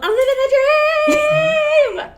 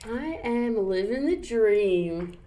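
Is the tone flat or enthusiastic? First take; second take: enthusiastic; flat. First: It is said with lively enthusiasm. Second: It is said flatly, without enthusiasm.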